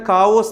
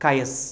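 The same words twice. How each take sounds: First: കാവോസ് with a "v" and long "os"; common misreading. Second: കയസ് with a gliding "kay-us"; correct pronunciation. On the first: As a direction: say കാവോസ് as "KAA-vos". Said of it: "ചിലരിത് വായിക്കുന്ന". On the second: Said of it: "കൃത്യമായ ഉച്ചാരണം". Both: Shown as a demonstration.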